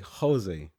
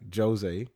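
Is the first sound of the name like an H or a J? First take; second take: H; J. First: It begins with an H-like sound. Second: It begins with a J sound. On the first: "You say it like a H" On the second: "in Portugal, you say the J, like Jose"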